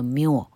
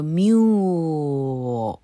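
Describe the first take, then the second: First: Said in the usual way. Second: Mule stretched out very long; exaggeratedly slow. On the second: Shown as a demonstration. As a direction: draw mule out slowly to show each sound. (mule放得很慢、拉长音示范) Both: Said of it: "但没念这么慢".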